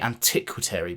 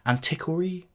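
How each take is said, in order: First: The word has an extra second T sound. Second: The word has only a single T sound. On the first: The speaker calls it wrong. "I always want to say antiquary, but that's obviously wrong" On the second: The speaker calls it right. "There's no second T in there"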